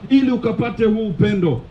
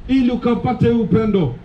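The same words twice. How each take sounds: The two takes are said the same way.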